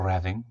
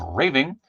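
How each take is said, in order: First: "RAH-ving" for Raving, a as in father; alternative pronunciation. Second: "RAY-ving" for Raving, rhyming with saving; first pronunciation. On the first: Streamer offering other reading of figure's name, alternative pronunciation. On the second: Streamer offering one reading of figure's name, first pronunciation. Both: Shown as a demonstration. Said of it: "depending on how you go".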